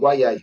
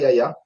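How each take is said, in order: First: The name is said like 'Wayai'. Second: The name is said like 'Yaya'. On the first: The speaker calls it right. "c'est c'est" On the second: The speaker calls it wrong. "c'est pas Yaya"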